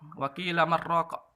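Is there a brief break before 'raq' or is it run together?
run together. The words run together without any break. The speaker calls it wrong.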